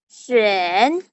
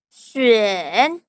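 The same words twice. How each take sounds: The two takes are said the same way.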